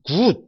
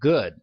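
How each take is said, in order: First: It is said with a Korean-style pronunciation. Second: It is said with an American pronunciation. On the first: The speaker calls it wrong. "많은 한국적인 발음 있지 않습니까? good 이렇게 하시면 안 돼요" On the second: The speaker calls it right. "이런 발음으로 가셔야 됩니다"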